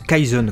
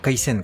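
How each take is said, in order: First: The middle consonant is a buzzing Z sound. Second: The middle consonant is a hissing S sound. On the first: The speaker calls it wrong. "Comment tu peux dire Kaizen" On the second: The speaker calls it right. "t'entends Kaisen quoi"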